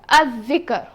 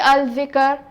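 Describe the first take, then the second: First: The L is silent and the dh is doubled. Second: The L is clearly pronounced before the dh. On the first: The speaker calls it right. "I will say" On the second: The speaker calls it wrong. "I will not say"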